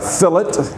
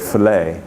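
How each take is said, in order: First: The final T sound is pronounced. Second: The final T sound is silent. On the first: "You also speak about a fillet" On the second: "the French would not pronounce that T on the end"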